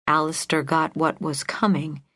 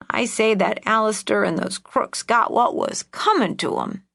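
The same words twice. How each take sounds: First: Said in the usual way. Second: Put-on higher, spiteful old lady; old woman voice. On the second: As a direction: relish the grudge, crackly. Old aunt's grudge.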